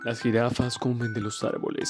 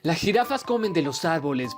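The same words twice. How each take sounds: First: It is spoken in a deep narrator voice. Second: It is spoken in an ordinary, not deep voice. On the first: "Así con la voz profunda que quieran" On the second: "pero también puedo decir"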